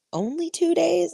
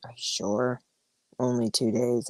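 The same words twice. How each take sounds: First: High-pitched mock-incredulous kid question; imitated surprised son. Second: Low, soft retold question; imitated doubtful son. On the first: Son's surprised question, retold. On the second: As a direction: imitate a doubting kid, dropped low and quieter. Son doubting parent's answer, retold.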